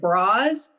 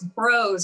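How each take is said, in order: First: The vowel sounds like 'ah', as in bras. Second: The vowel sounds like 'oh', as in bros. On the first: The speaker calls it wrong. "people um, would mispronounce it bras" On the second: The speaker calls it right. "no, it's bros. It rhymes with bros"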